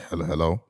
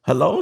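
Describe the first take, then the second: First: Put-on low phone voice; softer, deep suave hello. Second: Said in the usual way. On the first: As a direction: drop way down to sound cool on the phone. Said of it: "I put the deep voice on".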